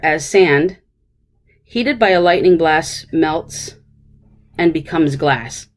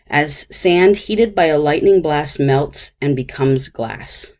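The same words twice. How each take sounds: First: There is a pause right after sand. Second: It flows on without a pause after sand. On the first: The speaker calls it wrong. "why would we want to have a pause between sand and heated?" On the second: The speaker calls it right. "that sounds pretty good"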